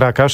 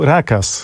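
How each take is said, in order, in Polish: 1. Imię kończy się dźwiękiem sz. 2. Imię kończy się dźwiękiem s. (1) "powiedziałem Rakasz" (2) "a powinienem powiedzieć był Rakas"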